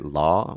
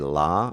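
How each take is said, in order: First: The vowel lies between ah and o. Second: The vowel is an open ah sound. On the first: "somewhere in between the the the o and ah sound" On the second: "Some Americans say la"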